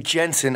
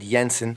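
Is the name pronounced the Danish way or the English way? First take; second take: English; Danish. First: The name is pronounced the English way. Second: The name is pronounced the Danish way. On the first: The speaker calls it wrong. "the way I didn't say Jensen" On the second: The speaker calls it right. "I said Jensen"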